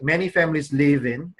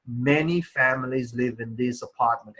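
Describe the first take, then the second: First: "in" left hanging before a stop; wrongly placed stop. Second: Each word of "Many families live in this apartment" carefully articulated; perfect pronunciation. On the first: Teacher showing students where not to stop, halting after "in". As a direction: break off after "in" as if mid-sentence. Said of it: "if you stop somewhere like this".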